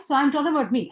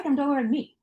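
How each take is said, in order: First: I'm leaned on, falling close; stress on I'm. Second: I'm weighted again, plain level; I'm stressed, the rest said evenly. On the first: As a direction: hit the word I'm to set yourself against them. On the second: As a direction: lean on I'm a second time to insist. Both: Real, not acted. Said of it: "I'm not talking about you".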